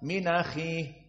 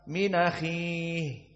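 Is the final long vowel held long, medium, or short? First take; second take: short; medium. First: The final vowel is held for two counts. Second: The final vowel is held for four counts. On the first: "jika dua harokat" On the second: "Jika dibaca empat, minahi empat"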